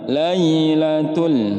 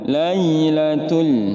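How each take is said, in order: Both takes have the same delivery.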